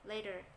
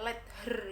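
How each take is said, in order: First: The two words are linked into one. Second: The two words are said separately. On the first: The speaker calls it right. "Ini dimasukkan ke sini. Jadinya T ini diapit oleh dua huruf hidup vowel" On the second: The speaker calls it wrong. "nggak perlu uh, dibaca let her gitu ya"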